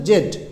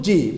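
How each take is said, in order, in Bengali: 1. অক্ষরটি 'zed' হিসেবে উচ্চারিত হয়। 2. অক্ষরটি 'zee' হিসেবে উচ্চারিত হয়। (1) "ব্রিটিশ উচ্চারণ হচ্ছে জেড" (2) "আমেরিকান উচ্চারণ জি"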